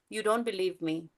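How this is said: The voice falls at the end, like a statement. It is stated as a fact. "So it could be a statement too"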